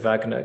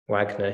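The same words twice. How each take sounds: First: The name is said the German way. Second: The name is said the American way.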